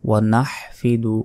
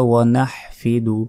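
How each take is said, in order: The two takes are said the same way.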